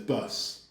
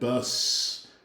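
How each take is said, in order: First: The word ends with a short s sound. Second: The word ends with a drawn-out s sound. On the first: "the U K says bus. Short, simple, just like that" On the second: "it can be something longer like bus with a longer S"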